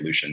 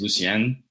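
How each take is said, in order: First: The name is said the American way. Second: The name is said the Haitian way. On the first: This is the easier form most people use. "So we just tell everyone just to say Lucian" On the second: This is how the family's heritage says it. "the correct way to say it is Lucien"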